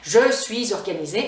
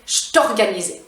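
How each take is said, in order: First: Both words of 'je suis' are fully pronounced. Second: 'Je suis' is reduced to 'je t' before the vowel. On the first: The speaker calls it wrong. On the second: The speaker calls it right. "le je suis devient je te"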